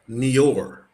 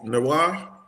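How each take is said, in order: First: The word is said with an American pronunciation. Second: The word is said with a French pronunciation. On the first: "over here in the States, we would announce that Nior" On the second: "but it's a French word. So"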